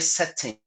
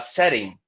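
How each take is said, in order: First: The middle t is a clear t. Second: The middle t is a quick flap. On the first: "Se fosse britânico, eu falaria setting, utilizando o Tzinho do tijolo" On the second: "numa pronúncia mais americana"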